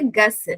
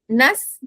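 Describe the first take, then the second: First: The word begins with a plain 'g' sound. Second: The word begins with a nasal 'ng' sound. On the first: This is how another regional tradition says it. "they will say Gus" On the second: This is how one's own tradition says it. "if it is Nas"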